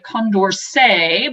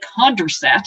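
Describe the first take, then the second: First: The name is said with a French pronunciation. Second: The name is said with an English pronunciation. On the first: "someone French named it Condorcet" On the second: "being English, we say Condorcet"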